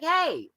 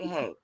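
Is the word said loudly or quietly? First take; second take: loudly; quietly. First: It is said loudly with a raised voice. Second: It is said at a normal, quiet volume. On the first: The speaker finally demands attention. "until I raise my voice and start talking crazy" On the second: The call is easily ignored. "it doesn't even get acknowledged"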